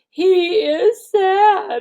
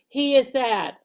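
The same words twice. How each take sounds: First: It is said with a sad, emotional tone. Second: It is said flatly, without emotion.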